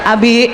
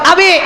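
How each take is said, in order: First: The name is called at a normal pitch. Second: The name is called at a very high pitch. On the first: This is the first call to the husband. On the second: This is the third call after being ignored twice.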